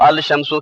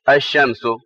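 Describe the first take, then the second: First: The L sound is clearly pronounced before shamsu. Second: The L is silent, merging into a doubled sh. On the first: The speaker calls it wrong. "अलिफ लाम का लाम साइलेंट रहता है" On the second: The speaker calls it right. "अल शम्सु की बजाय क्या पढ़ेंगे?"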